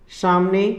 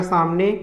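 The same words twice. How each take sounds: First: सामने starting with sh, "shamne"; wrong सामने. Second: सामने starting with a plain s, "samne"; correct सामने. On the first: Teacher showing the error, सामने as "shamne". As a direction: turn the s of सामने into sh. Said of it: "यह शुद्ध है". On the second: Teacher giving correct form, सामने as "samne". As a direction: keep a clean s in सामने. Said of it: "इसका शुद्ध होगा". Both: Shown as a demonstration.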